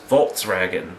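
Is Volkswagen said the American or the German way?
German. It is said with a German pronunciation. The speaker calls it right. "it's Volkswagen"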